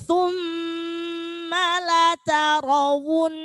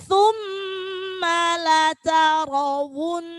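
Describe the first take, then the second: No difference in how they are said.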